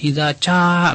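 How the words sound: The second word begins with a ch sound. The speaker is African. "kalau Afrika ya mengucapkan jim itu ca"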